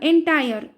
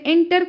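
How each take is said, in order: First: The word ends with a long 'tire' sound. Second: The word ends with a short 'ter' sound. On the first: The speaker calls it right. "Pronunciation इसका सही है एंटायर" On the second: The speaker calls it wrong. "मैंने यहाँ पे एंटर कहा भी गलती से"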